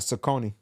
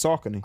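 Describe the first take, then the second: First: "Saucony" pronounced suh-KOH-nee; rejected pronunciation. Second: "Saucony" pronounced SOCK-uh-nee; corrected pronunciation. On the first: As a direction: hit the long OH in the middle of "Saucony". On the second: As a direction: hit the first syllable of "Saucony": SOCK. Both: Shown as a demonstration. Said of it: "it's not Saucony".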